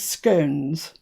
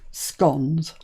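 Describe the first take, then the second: First: It is said the posh southern English way. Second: It is said the northern English way. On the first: This is how posher people in the south say it. "usually the posher folk from the south refer to them as scones" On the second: This is how people in the north say it. "from the people up north, we say scones"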